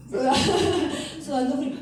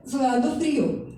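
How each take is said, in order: First: Laughing through the words; laughing at the memory. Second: Said in the usual way. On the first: Real, not acted. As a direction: chuckle as you repeat it. Laughs retelling cold sweat. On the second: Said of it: "Yo estaba sudando".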